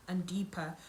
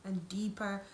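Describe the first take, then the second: No difference in how they are said.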